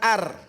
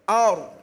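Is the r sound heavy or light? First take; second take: light; heavy. First: The r is pronounced light and thin. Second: The r is pronounced heavy and thick. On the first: The speaker calls it wrong. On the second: The speaker calls it right. "Dibacanya tebal"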